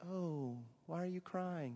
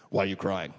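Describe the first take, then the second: First: Higher, softer and slow, tender mock concern; what he would say to someone crying, tender and soft; gentle sympathy. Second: Louder, flat blunt demand; Ray's blunt question to the crying student, louder; blunt challenge. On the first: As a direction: coo it like a kind comforter. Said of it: "I would say". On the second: Retold or imitated. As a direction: fire it at him bluntly. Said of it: "and he says".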